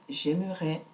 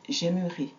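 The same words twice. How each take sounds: First: The final vowel is an open e sound. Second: The final vowel is a closed e sound. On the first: It is the present conditional. "comme dans ouvert" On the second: It is the future tense. "on a le son et comme dans fermer"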